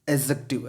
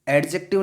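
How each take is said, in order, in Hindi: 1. d की आवाज़ j से पहले साइलेंट रहती है। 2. d की आवाज़ j से पहले बोली जाती है। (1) "उसमें डी साइलेंट रहेगा" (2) "एडजेक्टिव नहीं है"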